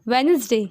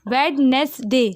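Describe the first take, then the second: First: The first d is silent, said as Wensday. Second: The first d is pronounced, syllable by syllable. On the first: The speaker calls it right. "हम लोग इसको क्या बोलते हैं" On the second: The speaker calls it wrong. "लेकिन हम लोग इसको वेडनेसडे नहीं पढ़ते"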